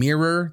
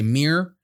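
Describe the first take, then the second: First: The word is said with two syllables. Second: The word is said as one syllable. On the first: "instead of saying mirror" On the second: "they say mirror. Like mirror? It's one syllable"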